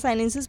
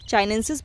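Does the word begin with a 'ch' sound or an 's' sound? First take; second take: s; ch. First: The word begins with an 's' sound. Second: The word begins with a 'ch' sound. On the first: "कुछ भी पढ़ सकते हैं आप" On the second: "चाइनेंसिस हमारा प्रोनाउंसिएशन सही है"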